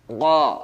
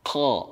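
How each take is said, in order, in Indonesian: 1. Konsonan ini dibuat jauh di dalam tenggorokan. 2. Konsonan ini dibuat dengan udara yang keluar. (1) "berlebihan sampai ke tenggorokan" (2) "tidak disertai dengan dengan keluarnya udara atau angin. Seperti misalnya membaca kha"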